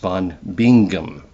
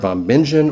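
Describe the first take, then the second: First: The name is said the instructed German way. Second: The name is said the familiar American way. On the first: "as I have been instructed, it's properly pronounced" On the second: "anybody I've ever heard says Bingen"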